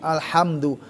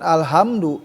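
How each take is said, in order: First: The h comes from the middle of the throat. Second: The h comes from deep in the throat. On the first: The speaker calls it right. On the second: The speaker calls it wrong.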